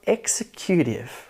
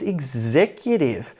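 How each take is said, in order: First: "executive" as EX-e-CUTE-ive; weight on EX and CUTE in "executive"; wrongly stressed "executive", like "execute"; misstressed syllable. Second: "executive" as ig-ZEC-utive; weak first syllable, punched second in "executive"; second-syllable stress. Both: Acted. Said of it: "if you misstress a syllable".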